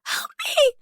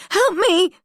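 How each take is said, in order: First: High, desperate cry for help; terrified scream. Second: High, loud scream for help; louder terrified scream. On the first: Drugged prisoner screams for help, terrified. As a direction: scream it out in panic. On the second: Prisoner screams again as Holly approaches, panicked. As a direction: yell it again, more desperate. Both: A narrator's reading. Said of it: "I scream".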